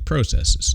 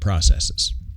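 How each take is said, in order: First: It is said with a Canadian pronunciation. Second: It is said with a non-Canadian pronunciation. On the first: "I'm Canadian and I say processes" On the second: "instead of processes"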